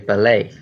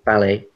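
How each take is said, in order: First: The stress is on the second syllable. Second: The stress is on the first syllable. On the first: "the stress on the second half" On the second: "we'd say ballet"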